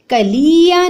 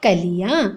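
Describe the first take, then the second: First: "कलिया" slowly as ka-lee-ya; high, long ee in "कलिया"; wrong long vowel. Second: "कलिया" lightly as ka-li-yaan; low "कलिया", short middle, rising end; correct short vowel. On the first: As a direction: stretch the middle of "कलिया". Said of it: "नहीं होता". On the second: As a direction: keep i brief in "कलिया". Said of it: "बल्कि क्या होता है बच्चों". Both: Shown as a demonstration.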